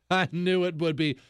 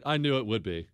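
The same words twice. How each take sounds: First: "I knew it would be" said through a laugh; amused self-praise with a laugh. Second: Said in the usual way. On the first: Real, not acted. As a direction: chuckle at your own joke. Repeat with a laugh.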